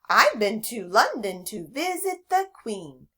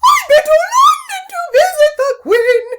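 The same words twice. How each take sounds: First: It is said in a normal voice. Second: It is said in a silly put-on voice.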